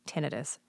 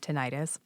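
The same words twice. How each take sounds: First: The ending is a short, unstressed '-ih-tus'. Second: The ending sounds like '-itis' in 'arthritis'. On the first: The word names a neurological condition. "The reason it's tinnitus, technically" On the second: The word would suggest an inflammation. "I will never, ever, ever correct someone for saying tinnitus"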